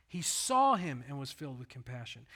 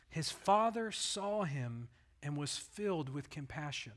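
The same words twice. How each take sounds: First: "saw" stretched and louder, rest steady; stress on saw. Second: Said in the usual way. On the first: Shown as a demonstration. Preacher repeating the verse, stressing "saw". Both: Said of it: "compassion came after he saw".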